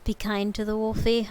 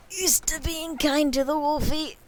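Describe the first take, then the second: First: Said in the usual way. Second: Raised, louder playful voice; higher put-on voice. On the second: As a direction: pitch it up in a silly voice. Repeats the phrase in a voice.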